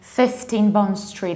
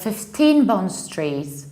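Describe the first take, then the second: First: Fifteen is stressed on its first syllable. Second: Fifteen is stressed on its second syllable. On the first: The speaker calls it right. "why do we say fifteen Bond Street" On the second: The speaker calls it wrong. "instead of fifteen Bond Street"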